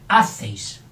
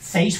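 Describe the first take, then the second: First: The stress is on the first syllable. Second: The stress is on the last syllable. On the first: The speaker calls it wrong. "si no sería hacéis" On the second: The speaker calls it right. "Hacéis fuerte"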